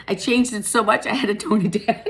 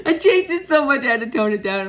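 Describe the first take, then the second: First: Said in the usual way. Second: Louder, amused repeat through leftover laughter; laughing. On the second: Real, not acted. Reader laughing about overdoing her new look, amused. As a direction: say it again still giggling at yourself.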